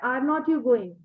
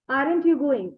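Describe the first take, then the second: First: 'Are not' is said as two full words. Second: 'Are not' is contracted into one syllable. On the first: The speaker calls it wrong. "some people say" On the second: The speaker calls it right. "So it's better to use aren't"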